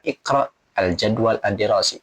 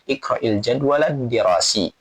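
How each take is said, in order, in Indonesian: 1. Kata-katanya diucapkan terpisah, dengan jeda di antaranya. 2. Kata-katanya disambung tanpa jeda di antaranya. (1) "boleh kita dipotong-potong seperti tadi ya" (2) "Kita baca langsung disambungkan"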